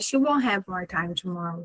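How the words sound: It is said casually, in a relaxed way.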